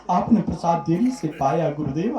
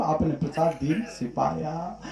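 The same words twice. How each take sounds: First: Said in the usual way. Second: Tearful repeat. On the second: Acted. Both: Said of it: "फपक फपक करके रोने लगा".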